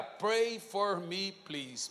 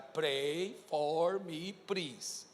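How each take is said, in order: First: Said in the usual way. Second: Slow, soft, drawn-out pleading English; rehearsed pleading. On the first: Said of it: "Mas não nessa entonação". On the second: Shown as a demonstration. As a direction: beg each word slowly and softly. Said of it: "não nessa entonação".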